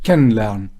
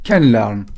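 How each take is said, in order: Both takes have the same delivery.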